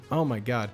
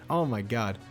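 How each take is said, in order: Both takes have the same delivery.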